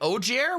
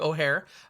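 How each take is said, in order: First: The middle consonant is a J sound. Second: The middle consonant is an H sound. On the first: The speaker calls it wrong. "we were like Ogier" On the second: The speaker calls it right. "It's actually O'Hare"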